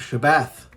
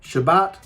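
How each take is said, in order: First: It begins with sh and ends with th. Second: It begins with sh and ends with t. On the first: This follows the Hebrew letters accurately. "Shabbath is the sound you should hear"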